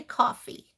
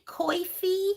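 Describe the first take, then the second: First: Said in the usual way. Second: Coffee said as "coy-fee"; regional pronunciation. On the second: Retold or imitated. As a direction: say coffee with an "oy" in the first syllable. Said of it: "cracks me up when she says".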